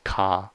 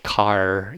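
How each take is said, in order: First: The final R is dropped. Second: The final R is pronounced. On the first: "the British accents where you... say ka" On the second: "you don't say car"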